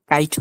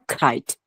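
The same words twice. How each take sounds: First: কাইট with a puffless k; unaspirated K. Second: কাইট said as "khait"; aspirated K. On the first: Teacher showing learner the wrong kite, unaspirated K. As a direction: keep the k of কাইট dry, no air. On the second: Teacher giving learner the correct kite, aspirated K. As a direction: puff air on the k of কাইট. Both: Shown as a demonstration. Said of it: "কাইট হবে না".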